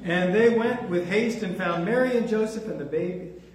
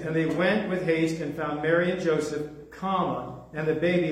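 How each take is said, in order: First: The phrase runs on with no pause after Joseph. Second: There is a pause after Joseph. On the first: Mary, Joseph and the baby are found together. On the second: The baby is found separately, lying in a manger.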